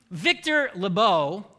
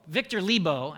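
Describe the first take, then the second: First: Lebow opening on a weak "luh"; first-try mispronunciation. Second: Lebow opening on a clear "lee"; corrected pronunciation. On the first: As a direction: say Lebow as luh-BOH, unstressed first syllable. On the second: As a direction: say Lebow as LEE-boh, full first vowel. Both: Real, not acted. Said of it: "Victor Lebow, actually".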